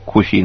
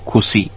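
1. ਵਿਚਕਾਰਲਾ ਵਿਅੰਜਨ sh ਵਾਂਗ ਬੋਲਿਆ ਜਾਂਦਾ ਹੈ। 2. ਵਿਚਕਾਰਲਾ ਵਿਅੰਜਨ s ਵਾਂਗ ਬੋਲਿਆ ਜਾਂਦਾ ਹੈ।

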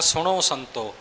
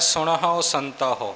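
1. ਅੰਤਲੇ ਸੁਰ ਤੋਂ ਪਹਿਲਾਂ 'h' ਦੀ ਆਵਾਜ਼ ਸੁਣਾਈ ਨਹੀਂ ਦਿੰਦੀ। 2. ਅੰਤਲੇ ਸੁਰ ਤੋਂ ਪਹਿਲਾਂ 'h' ਦੀ ਆਵਾਜ਼ ਸੁਣਾਈ ਦਿੰਦੀ ਹੈ। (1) "ਆਪਾਂ ਸਿੱਧਾ ਬੋਲੀ ਜਾਂਦੇ ਹਾਂ" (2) "ਜੈਸਾ ਲਿਖਿਆ ਤੈਸਾ ਉਚਾਰਨ ਕਰਨਾ ਹੈ"

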